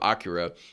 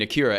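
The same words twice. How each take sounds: First: The name is pronounced the Japanese way. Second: The name is pronounced the American English way. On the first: "you did the J- Japanese pronunciation the first time" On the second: "You corrected yourself"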